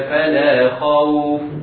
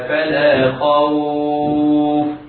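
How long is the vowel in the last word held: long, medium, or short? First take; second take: short; medium. First: The vowel in the last word is not lengthened. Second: The vowel in the last word is moderately lengthened. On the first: "سقوط المد هكذا" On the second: "والتوسط من غير أربع حركات هكذا"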